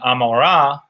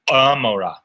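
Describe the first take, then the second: First: The word starts with a plain vowel. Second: The word starts with a sound deep in the throat. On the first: This is the usual modern pronunciation. "instead of saying Amorah" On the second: This is how it may have been said in ancient times. "ayin would have been pronounced in the throat"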